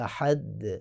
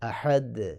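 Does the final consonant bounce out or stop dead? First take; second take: bounces out; bounces out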